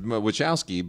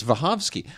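First: WACHOWSKI said "wi-CHOW-skee"; American pronunciation. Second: WACHOWSKI said "va-HOV-skee"; Polish pronunciation. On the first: Host conceding their own version, Wachowski as wi-CHOW-skee. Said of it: "No, they pronounce it". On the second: Host insisting on the correct name, Wachowski as va-HOV-skee. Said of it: "but it's Wachowski". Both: Shown as a demonstration.

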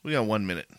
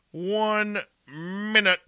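First: Said in the usual way. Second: High and slow, stretching "One minute"; drawn-out sing-song. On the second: Pretend. Host counting down to air.

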